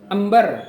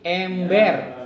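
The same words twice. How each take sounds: First: The first vowel is an ordinary, plain e. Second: The first vowel is a clear, distinct e. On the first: The speaker calls it wrong. "Bukan ember" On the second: The speaker calls it right. "tapi ember. Karena e-nya ada titiknya"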